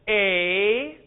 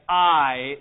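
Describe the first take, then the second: First: It sounds like the vowel in 'say'. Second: It sounds like the vowel in 'height'. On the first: The speaker calls it wrong. "instead you pronounce this as a" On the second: The speaker calls it right. "We're going to pronounce epsilon iota as I, just like that, as in our word height"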